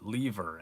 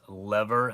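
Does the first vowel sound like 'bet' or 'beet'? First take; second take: beet; bet. First: The first vowel is long, as in 'beet'. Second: The first vowel is short, as in 'bet'. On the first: "as in, you know, leave her" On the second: "as in like, you know, a lever"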